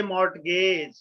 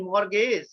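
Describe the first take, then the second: First: "mortgage" with the T sounded; T pronounced. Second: "mortgage" with no T sound; silent T. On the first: Teacher showing what students will say, "mortgage" with audible T. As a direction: say "mortgage" slowly as "mort-gage". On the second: Teacher correcting students, "mortgage" with the T silent. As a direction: say "mortgage" as "mor-gage", dropping the T. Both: Shown as a demonstration. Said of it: "T is the silent".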